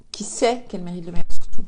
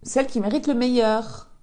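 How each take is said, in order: First: Meilleur punched much louder; stress on meilleur. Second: Said in the usual way. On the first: Shown as a demonstration. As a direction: hit the word meilleur hard, lower.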